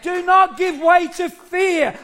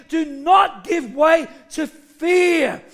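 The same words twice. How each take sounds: First: Raised, higher emphatic urging; preaching exhortation. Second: Slow, weighty "Do not give way to fear"; emphatic repetition. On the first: Preacher urges church not to fear, exhorting. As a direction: exhort them firmly at an even pace. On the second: Preacher repeats warning against "fear", slow and emphatic. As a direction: hit "not" and draw out "fear". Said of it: "I'll say it again". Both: Real, not acted.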